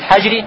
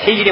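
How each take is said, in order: First: The first vowel is an a sound. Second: The first vowel is an i sound. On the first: "можно читать с фатхой" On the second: "слово хиджри можно читать с касрой"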